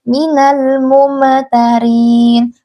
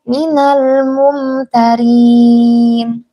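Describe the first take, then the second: First: The m is bounced and read quickly. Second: The m is smooth and read slowly. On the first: The speaker calls it wrong. "jangan dibaca minal mumtarin... Itu karena kecepatan" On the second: The speaker calls it right. "baca pelan-pelan aja"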